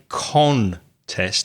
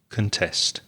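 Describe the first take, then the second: First: The stress is on the first syllable. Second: The stress is on the second syllable. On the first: The speaker calls it wrong. "Notice I didn't say contest" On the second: The speaker calls it right. "when you're stressing the second syllable, the first syllable becomes weak"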